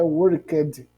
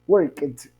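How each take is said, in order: First: The ending sounds like a d. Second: The ending sounds like a t. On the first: The speaker calls it wrong. "Ele não é worked, certo? Com som de D" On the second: The speaker calls it right. "a pronúncia fica com som de t"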